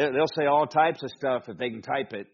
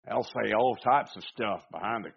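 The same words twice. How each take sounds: First: Said in the usual way. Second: Slipping into a Southern twang; Southern accent. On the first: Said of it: "But anyway, they". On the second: Real, not acted. Preacher on keyboard commanders, slipping into a Southern accent. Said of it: "I don't know why it's Southern".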